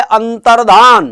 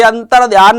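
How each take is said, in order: First: अंतर्धान with a plain ध, no य; correct form. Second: अंतर्ध्यान with the ध्य sound; wrong form. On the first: Teacher giving the correct word अंतर्धान. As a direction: say it right, अंतर्धान. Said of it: "शब्द होता है". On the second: Teacher showing the wrong form अंतर्ध्यान. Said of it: "नाम का कोई शब्द नहीं होता". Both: Shown as a demonstration.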